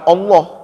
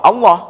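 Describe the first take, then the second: First: The final vowel is a rounded 'o' sound. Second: The final vowel is an open 'a' sound. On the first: The speaker calls it wrong. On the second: The speaker calls it right. "Ini A Pak, bukan O"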